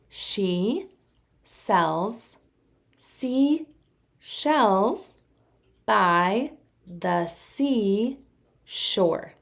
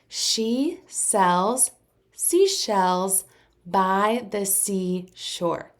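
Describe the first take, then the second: First: It is said at a slower pace. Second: It is said at a faster pace.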